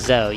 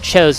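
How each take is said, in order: First: The first syllable sounds like 'chi'. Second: The first syllable sounds like 'cho'. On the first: The speaker calls it right. "it's more Chizo than anything" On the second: The speaker calls it wrong. "it's not pronounced after the Metroid term, is it?"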